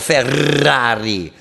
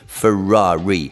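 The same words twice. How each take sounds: First: It is said with an Italian rolled R. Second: It is said with an English accent.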